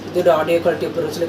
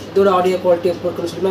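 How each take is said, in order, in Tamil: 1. Noise cancellation இல்லாமல் fan சத்தம் கேட்கிறது. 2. ஃபேன் சத்தம் நாய்ஸ் கேன்சலேஷனால் இன்னும் வலுவாகக் குறைக்கப்படுகிறது. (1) "நாய்ஸ் கேன்சலேஷன் ஆன் பண்ணாமல் தான் பேசிகிட்டு இருக்கேன்" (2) "second level of noise cancellation on பண்ணிட்டேன்"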